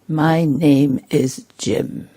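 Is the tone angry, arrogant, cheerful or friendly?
arrogant. It is said in an arrogant, superior tone. The speaker thinks himself above the listener. "very arrogant"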